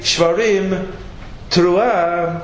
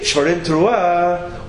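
First: There is a pause between the two words. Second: The two words run together without a pause. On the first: The two are separate sounds. "sound like two independent sounds" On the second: The two are one joined sound. "hyphenated as one sound"

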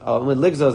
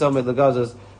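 First: The second word sounds like ligzos. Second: The second word sounds like legazos. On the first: The speaker calls it right. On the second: The speaker calls it wrong. "I'm pronouncing it wrong"

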